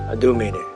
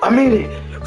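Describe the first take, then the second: First: It is said calmly at normal volume. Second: It is shouted loudly.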